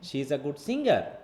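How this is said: The word singer carries the stress. She is good at singing, not cooking. "তখন আমার সিঙ্গারের উপর force"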